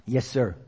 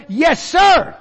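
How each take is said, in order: First: Soft, low, humble yes sir; quiet answer. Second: Loud, high, ringing yes sir; model answer. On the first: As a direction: say it softly, humbled. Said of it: "We've gotta say it more". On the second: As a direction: call out the answer with full conviction. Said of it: "Are you willing to try". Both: Shown as a demonstration.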